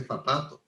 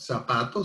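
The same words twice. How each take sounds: First: "zapato" with a th sound for the z; Madrid pronunciation. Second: "zapato" with a plain s sound; seseo. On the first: Venezuelan showing how Madrid says it, Castilian th. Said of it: "bueno, se dice zapato". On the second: Showing how most Spanish speakers say it, with s. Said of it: "sería con S". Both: Shown as a demonstration.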